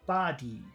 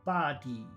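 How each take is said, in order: Both takes have the same delivery.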